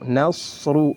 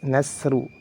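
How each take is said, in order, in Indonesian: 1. Bunyi s tebal, lidah terangkat. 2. Bunyi s tipis, lidah direndahkan. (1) "Lidahnya diangkat dan ditempelkan ke langit-langit" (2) "tidak boleh dibaca"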